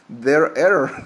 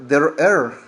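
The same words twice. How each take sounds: The two takes are said the same way.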